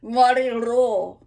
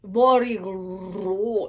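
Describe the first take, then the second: First: Morirò with a louder, lifted ro. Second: Morirò sung slowly, lighter ro; just go ro; plain ro. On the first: Coach showing the bright ro. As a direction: push up the ro. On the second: Coach showing the simple ro. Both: Shown as a demonstration. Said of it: "If you just go ro".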